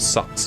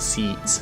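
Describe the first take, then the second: First: The vowel is central, sounding like sucks. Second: The vowel is fronted, sounding like seeks.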